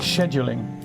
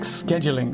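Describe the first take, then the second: First: The word is said with a British pronunciation. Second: The word is said with an American pronunciation. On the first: "I would never say scheduling" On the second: "words that I pronounce the American way"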